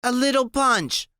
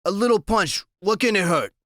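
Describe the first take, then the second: First: High, slurred tipsy echo; slurpy drunk. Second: Nervous. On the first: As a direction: let the words slide out drunk. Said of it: "her voice is slurpy". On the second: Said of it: "he sounds real nervous". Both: Acted.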